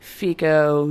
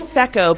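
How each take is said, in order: First: The first vowel is long, like 'fee'. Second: The first vowel is short, like 'feh'. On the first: "the first vowel is loud" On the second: "some people try and say feco"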